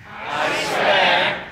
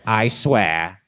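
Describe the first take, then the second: First: High hushed cultist echo; evil pledge echo. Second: Said in the usual way. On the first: Shown as a demonstration. Crowd repeating the evil pledge, much higher and hushed. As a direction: echo it back like an evil cult choir. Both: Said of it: "recite the Pledge of Evil Allegiance".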